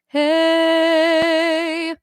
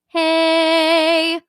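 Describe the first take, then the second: First: It is said with a dark tone. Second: It is said with a bright tone.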